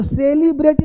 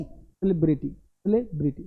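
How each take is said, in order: First: "सेलिब्रिटी" as high SAY-lee-bray-tee; higher-pitched "सेलिब्रिटी" with long say-lee; wrong pronunciation. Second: "सेलिब्रिटी" as suh-LEB-ri-tee, lower and softer; short, unstretched vowels in "सेलिब्रिटी"; correct pronunciation. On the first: Teacher rejects the common error, wrong pronunciation. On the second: Teacher models the fix for students, correct pronunciation. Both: Shown as a demonstration. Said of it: "तो सेलिब्रिटी नहीं".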